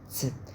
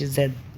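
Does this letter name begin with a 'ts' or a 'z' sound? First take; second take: ts; z. First: It begins with a t and s sound together. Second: It begins with a buzzing z sound. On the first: The speaker calls it right. "كأنك بتنطق تي اس بس بتاكل الاس" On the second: The speaker calls it wrong. "ما بتنطقش زد ز"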